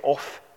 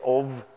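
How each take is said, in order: First: The word ends with an F sound. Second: The word ends with a V sound. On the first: The speaker calls it wrong. "You don't say off" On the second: The speaker calls it right. "you say of"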